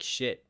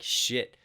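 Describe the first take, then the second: First: It sounds defeated and overwhelmed. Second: It sounds triumphant and proud. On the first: The situation feels too hard to handle. "wow, I can't deal with this. Like shit" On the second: Look at everything that has been achieved. "it's like shit. Look at what we've accomplished"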